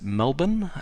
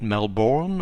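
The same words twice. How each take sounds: First: The name is said the way locals say it. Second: The name is said the way outsiders say it. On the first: The speaker is from the area. The speaker calls it right. "you also pronounce it Melbourne" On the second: The speaker is from out of town. The speaker calls it wrong. "not Melbourne or Brisbane"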